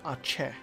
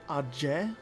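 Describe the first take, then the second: First: The middle consonant is a ch sound. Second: The middle consonant is a j sound. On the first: "there's no C H" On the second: "what are you doing with the J in there?"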